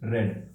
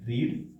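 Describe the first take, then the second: First: The vowel is short, like 'red'. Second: The vowel is long, like 'reed'. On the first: It is the past-tense form. "बस बोलते वक्त बोलेंगे रेड" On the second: It is the present-tense form. "पढ़ने को क्या बोलेंगे"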